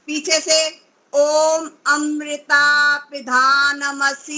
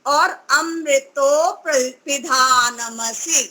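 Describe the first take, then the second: First: Slowly mimicking अमृता with a long ई-like vowel; imitating wrong. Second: अमृतो पिधानमसि said slowly with a short रि; correct short ई. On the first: Teacher imitating students' wrong pronunciation slowly. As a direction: show the common mistake, slowly. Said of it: "ऐसा बोलते हैं". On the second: Teacher giving the correct mantra slowly. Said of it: "इन दो मंत्रों में ये आया है". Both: Shown as a demonstration.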